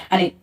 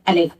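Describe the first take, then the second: No difference in how they are said.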